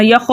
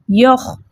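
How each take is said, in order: First: यख with the final kh let go into a short vowel; wrong kh release. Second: यख ending on a voiceless throat kh, no vowel after; stopped kh. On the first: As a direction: show the mistake: यख sounding like "yakho". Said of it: "ऐसे नहीं पढ़ना". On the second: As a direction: halt यख right on the kh friction. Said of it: "इसके मखरज में रोक देना है". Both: Shown as a demonstration.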